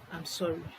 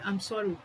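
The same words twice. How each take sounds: First: It is said in a gentle, sincere tone. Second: It is said in an impatient, dismissive tone. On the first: The apology is truly meant. The speaker calls it right. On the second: The apology is not really meant. The speaker calls it wrong.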